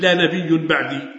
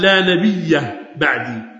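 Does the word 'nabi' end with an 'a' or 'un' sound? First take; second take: un; a. First: The word nabi ends with an un sound. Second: The word nabi ends with an a sound. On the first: La is a prophet after me. The speaker calls it wrong. "لم يقل النبي لا نبي بعدي، لا مبتدأ نبي خبر" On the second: There is no prophet after me. The speaker calls it right. "إنما قال لا نبي بعدي، يعني لا نافية"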